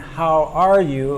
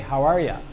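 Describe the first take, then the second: First: The last word is said in full. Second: The last word is reduced to a short ya. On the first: "instead of saying" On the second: "a native speaker might say"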